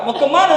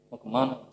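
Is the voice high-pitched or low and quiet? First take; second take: high-pitched; low and quiet. First: The voice is high-pitched. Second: The voice is low and quiet. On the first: The speaker is friendly and greeting kindly. "Itu nadanya tinggi dia baik negur" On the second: The speaker means harm. "sudah nadanya pelan"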